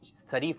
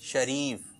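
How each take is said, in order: First: The word begins with a plain s sound. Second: The word begins with an sh sound. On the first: The speaker calls it wrong. "शरीफ नहीं" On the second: The speaker calls it right. "शरीफ शीन से"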